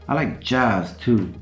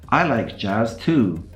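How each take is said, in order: First: The stress falls on the word jazz. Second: The stress falls on the word I. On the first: The speaker likes jazz as well as other music. "I don't only like rock and roll" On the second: Someone else likes jazz, and so does the speaker. "You're not the only one who likes jazz"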